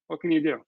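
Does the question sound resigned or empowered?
resigned. It sounds resigned and shrugging. Nothing can be done about it. "sarcastic and dark sense of humor"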